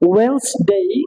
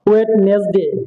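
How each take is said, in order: First: The middle d is silent, two syllables. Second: The middle d is sounded, three syllables. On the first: The speaker calls it right. "It will be ওয়েন্সডে" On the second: The speaker calls it wrong. "এটা কি সম্পূর্ণ ভুল"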